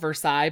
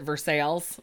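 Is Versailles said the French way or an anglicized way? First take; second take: French; anglicized. First: It is pronounced in a French-sounding way. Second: It is pronounced in an anglicized, local way. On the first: This is how the name is properly written and known. "that town in Kentucky that's called Versailles" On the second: This is how local people actually say it. "but people pronounce it Versailles"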